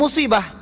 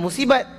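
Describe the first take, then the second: First: The word ends with an h sound. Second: The word ends with a t sound. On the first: This is the original Arabic form. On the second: This is how Malay speakers usually say it. "Dia sebut ta. Ah, jadilah musibat"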